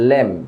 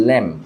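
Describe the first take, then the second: Both takes have the same delivery.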